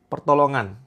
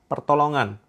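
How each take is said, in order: No difference in how they are said.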